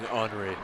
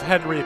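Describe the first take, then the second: First: The name is said with French pronunciation. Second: The name is said with English pronunciation. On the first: The speaker calls it right. "the French way" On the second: The speaker calls it wrong. "I'm being corrected by James with the pronunciation of Henri Peltier"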